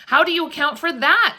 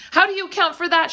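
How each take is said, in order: First: High, loud, horrified challenge; awful voice. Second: High, fast, louder outcry; alarmed cry. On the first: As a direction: demand it in dread, pointing it out. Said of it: "in an awful voice". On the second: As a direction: cry out near hysterics. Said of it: "she cried". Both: A narrator's reading.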